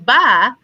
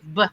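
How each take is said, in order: First: The b sound is followed by a vowel. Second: The b sound is said with no vowel. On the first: The speaker calls it wrong. "we've now opened our mouth. We've now said a vowel" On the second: The speaker calls it right. "we don't add that extra sound"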